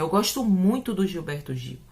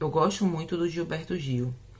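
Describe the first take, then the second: First: It is said in a lively, expressive tone. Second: It is said in a flat, neutral tone. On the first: It shows how the speaker feels about him. "a minha entonação está dando" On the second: It shows nothing about the speaker's feelings. "a minha entonação não diz que tipo de relação eu tenho"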